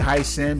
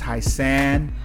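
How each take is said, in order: First: The second syllable sounds like 'sin'. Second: The second syllable sounds like 'san'. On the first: The speaker calls it wrong. "Like I would say Hi Sin" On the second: The speaker calls it right. "but it's Hi San"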